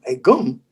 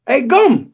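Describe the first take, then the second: First: Said in the usual way. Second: Greeting on phone. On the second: Retold or imitated.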